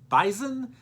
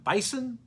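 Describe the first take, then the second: First: The word has the local Fargo pronunciation. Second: The word has its usual, non-local pronunciation. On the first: The speaker calls it right. "The locals there in Fargo pronounce it Bison" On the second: The speaker calls it wrong. "not Bison"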